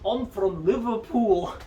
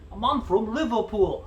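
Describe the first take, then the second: First: The put-on accent drifts toward a Scottish accent. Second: The put-on accent sounds like a Liverpool accent.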